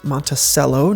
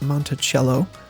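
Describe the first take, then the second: First: The 'c' is said like an 's'. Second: The 'c' is said like a 'ch'. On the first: The speaker calls it right. "is pronounced Monticello" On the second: The speaker calls it wrong. "not Monticello"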